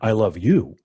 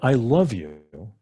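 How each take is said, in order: First: The stress is on "you". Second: The stress is on "love".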